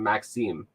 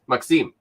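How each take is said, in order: First: The pitch stays level through the name. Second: The pitch goes up through the name. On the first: The speaker calls it wrong. "I just kept calling him Maxime" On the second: The speaker calls it right. "You have to like go up"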